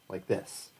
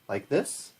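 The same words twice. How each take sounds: First: The pitch falls at the end. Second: The pitch rises at the end. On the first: The speaker calls it right. "instead of going down like this" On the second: The speaker calls it wrong. "you tend to go up like this"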